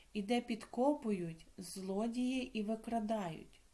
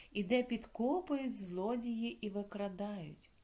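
Both takes have the same delivery.

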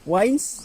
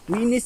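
First: The name is said like the English word 'wines'. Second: The name is said with two syllables, 'wi-nis'. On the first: The speaker calls it wrong. "Wines, na dili oy" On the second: The speaker calls it right. "Winis day ang tamang kuan pronounce"

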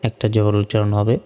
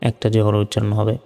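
No difference in how they are said.

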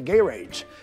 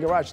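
First: The first syllable sounds like 'gay'. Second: The first syllable does not sound like 'gay'. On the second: "We say garage"

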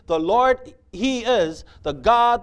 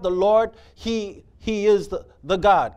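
First: It is said smoothly without breaks. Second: It is said haltingly, with words repeated in awe.

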